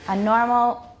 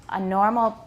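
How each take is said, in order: No difference in how they are said.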